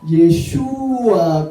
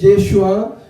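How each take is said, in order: First: The stress falls on the 'shu' syllable. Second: The stress falls on a syllable other than 'shu'. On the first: The speaker calls it right. "con acento en la U" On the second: The speaker calls it wrong. "no es Yeshua"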